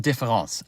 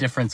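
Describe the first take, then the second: First: The word is said with a French pronunciation. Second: The word is said with an English pronunciation. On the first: "someone in the comments says difference or différence" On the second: "that's the anglicized version of it"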